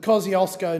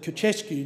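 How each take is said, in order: First: The name has an Anglicized pronunciation. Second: The name has a Polish pronunciation. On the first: The speaker calls it wrong. "which I have absolutely mispronounced" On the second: The speaker calls it right. "they, of course, would call it"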